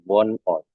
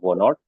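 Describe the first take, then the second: First: The two parts are separated by a break. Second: The two parts run together without a break. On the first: The speaker calls it right. "ini dipisah ya" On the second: The speaker calls it wrong. "jangan dibaca Von Ort"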